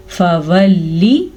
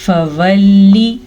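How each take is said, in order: First: फवल्ली recited very slowly, each vowel stretched, rising at the end; Quranic recitation. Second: फवल्ली drawn out slowly, the vowel held and rising at the end; Quranic recitation. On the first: Teacher repeating the word for students, slow chanted demo. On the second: Teacher showing students how to recite, slow chanted demo. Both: Shown as a demonstration. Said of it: "इससे ज़्यादा किसी भी हरकत को हम लंबा नहीं कर सकते".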